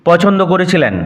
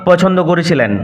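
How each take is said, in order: The two takes are said the same way.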